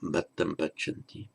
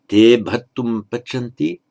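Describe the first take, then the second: First: "Bhattam pachanti" said quietly; softer short form. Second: "Te" given weight, louder; pronoun stressed. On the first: Teacher giving the short plural, softer. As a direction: drop to a soft short form. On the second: Teacher reading the plural with pronoun, louder. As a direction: lean into "Te". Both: Shown as a demonstration.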